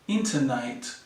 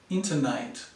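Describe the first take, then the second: First: The last vowel is a long ay sound. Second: The same.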